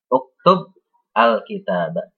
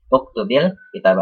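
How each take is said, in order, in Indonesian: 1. Kedua kata dibaca terpisah, masing-masing sendiri. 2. Kedua kata itu dihubungkan dengan vokal i yang disisipkan. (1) "jika ingin dibaca sendiri-sendiri ya, tidak kita baca bersambung" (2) "jika ingin dibaca bersambung ya ... diubah menjadi kasrah"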